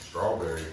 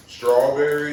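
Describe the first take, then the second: First: Said in the usual way. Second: Louder, higher flavor call; louder announcing. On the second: Real, not acted.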